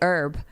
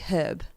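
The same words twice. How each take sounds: First: The word starts without an H sound. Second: The word starts with a clear H sound. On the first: "I say herb" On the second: "British people say herb. Like a hard H"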